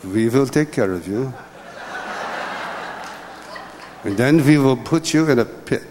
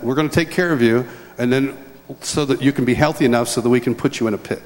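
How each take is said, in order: First: Hammed-up German accent, W turned to V; horrible German accent. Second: Said in the usual way. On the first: Son imitates his father's German doctor, horrible German accent. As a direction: do a bad comic German accent. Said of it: "in my horrible German accent". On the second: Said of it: "which is basically what he said".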